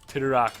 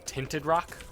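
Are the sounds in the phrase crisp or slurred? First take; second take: slurred; crisp. First: The sounds run together and are slurred. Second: Each sound is pronounced crisply and clearly. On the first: The speaker calls it wrong. "like I'm slurring my speech and saying Tinted Rock" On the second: The speaker calls it right. "See how I'm enunciating the the sounds in Tinted Rock now?"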